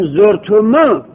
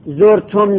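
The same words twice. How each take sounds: First: زرتمو said with a final u; long form. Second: زرتم said with a closed mim; short form. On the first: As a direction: let زرتمو open into a long u. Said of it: "داریم، بله". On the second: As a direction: end زرتم sharply on the mim. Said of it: "زرتمو داریم". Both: Shown as a demonstration. Teacher comparing the two forms of the pronoun.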